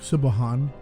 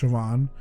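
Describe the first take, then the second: First: The name is sounded out letter by letter. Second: The name is said with its Irish sounds. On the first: The speaker calls it wrong. "it looks like Sibahan" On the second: The speaker calls it right. "but it's pronounced Siobhan"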